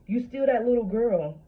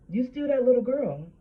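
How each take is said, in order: First: Higher and louder, pressing home; insistent. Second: Higher still and louder, stress on little; insistent, building. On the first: Telling women the hurt child is still inside, insistent. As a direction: drive it home to the listener. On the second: Telling women the hurt child is still inside, more insistent. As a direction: lean harder on little. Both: Real, not acted. Emphatic repeated point.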